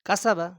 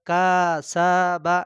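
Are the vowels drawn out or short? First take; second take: short; drawn out. First: The vowels are kept short. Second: The vowels are stretched out long. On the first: The speaker calls it right. "টান দেওয়া যাবে না" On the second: The speaker calls it wrong. "অনেকে এরকম পড়ে, এরকম পড়া যাবে না"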